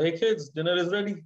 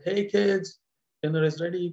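First: It is called out in a plain tone. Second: It is said in a warm, loving tone.

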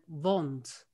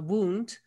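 First: It is said in old Shakespearean pronunciation. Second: It is said in modern English pronunciation. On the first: "they pronounced it then wond" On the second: "like a wound"

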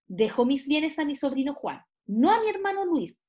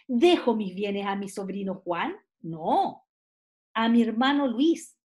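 First: The pause comes before 'no'. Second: The pause comes after 'no'.

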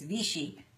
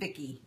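First: The middle consonant is not a K sound. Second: The middle consonant is a K sound. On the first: The speaker calls it right. "It's Vichy" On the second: The speaker calls it wrong. "I kept saying Vicky. That's not right. There's no K in there"

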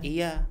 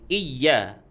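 First: The y sound is short and light. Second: The y sound is held long and pressed. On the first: It means sunlight. The speaker calls it wrong. "bukan baca" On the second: It means only to You. The speaker calls it right. "di situ harus ada ditekan sedikit"

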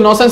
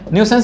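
First: The first syllable sounds like 'non'. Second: The first syllable sounds like 'new'. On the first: The speaker calls it wrong. "नॉनसेंस नहीं बोलेंगे ... वो गलत pronunciation है" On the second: The speaker calls it right. "इसको न्यूसेंस बोलते हैं"

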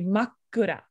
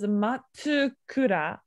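First: The k is held long with no tsu. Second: A full tsu syllable comes before the k. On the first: The speaker calls it right. "but it's actually Makura. That's a small two right there" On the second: The speaker calls it wrong. "you pronounce this as Matsukura"

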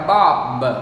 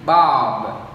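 First: The final consonant is released strongly. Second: The final consonant is released softly. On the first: The speaker calls it wrong. "nhiều người đọc là bob, ... các bạn bật rất là mạnh" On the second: The speaker calls it right. "nó đọc nhẹ nhàng đi, đọc giảm đi"

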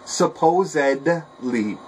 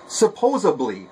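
First: A d sound comes before the ending. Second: A b sound comes before the ending. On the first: The speaker calls it right. "Not supposably" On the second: The speaker calls it wrong. "Another one that's very simple to change to say correctly"

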